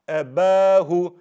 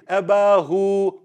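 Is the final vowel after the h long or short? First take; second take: short; long. First: The final vowel after the h is short. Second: The final vowel after the h is stretched long. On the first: The speaker calls it right. "That's why you don't stretch the ha" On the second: The speaker calls it wrong. "You don't say abahu"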